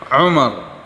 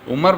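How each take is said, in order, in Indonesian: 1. Diawali dengan bunyi ain yang berat di tenggorokan. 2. Diawali dengan hamzah biasa. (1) "Ini Umar pakai ain" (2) "Umar pakai pakai hamzah, pakai alif, itu artinya diperintah"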